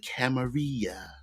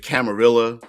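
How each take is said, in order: First: The double L is pronounced as a Y sound. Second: The double L is pronounced as an L sound. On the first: This is the old-world way of saying it. "with the double L's being pronounced like a Y" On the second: This is the American way of saying it. "if you were stateside"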